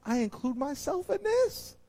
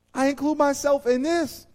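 First: Said in the usual way. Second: Mean it the second time; louder emphatic repeat. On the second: Shown as a demonstration. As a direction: repeat it louder, pressing the point. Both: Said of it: "said twice".

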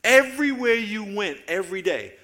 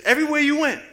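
First: Strong preacher's call, EVERYWHERE leaned on; preaching loud. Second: Much higher, louder cry of "everywhere you went"; climactic shout. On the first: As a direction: open the list with full preaching force. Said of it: "opening sermon line, building". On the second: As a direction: peak the repetition like a revival preacher. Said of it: "repeats opening phrase, climaxing". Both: Real, not acted.

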